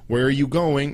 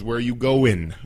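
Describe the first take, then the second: First: The word 'going' ends with a full 'ing' sound. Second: The word 'going' ends with an 'in' sound. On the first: This is the standard form. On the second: This is the casual slang form.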